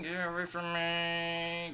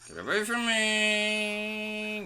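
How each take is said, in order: First: 1 high drawn-out voice. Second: High, slow, stretched-out plea; high silly voice. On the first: Mock voice at game ghost. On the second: Gamer whining high at a ghost. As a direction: whine it up high and drawn out. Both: Pretend.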